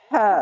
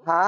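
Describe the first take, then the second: First: হা with air pushed out from the throat; breathy ha. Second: হা said as a plain, light h; a simple হা with no extra breath. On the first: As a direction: let the breath rush out on হা. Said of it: "এই হা উচ্চারণ করতে গেলে বাতাস বেরোবে". (বাতাস বের করে হা উচ্চারণ) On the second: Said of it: "আর এই হা শুধু". (সাধারণ হা উচ্চারণ) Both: Shown as a demonstration.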